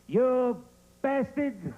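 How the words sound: It is said with a big, exaggerated B.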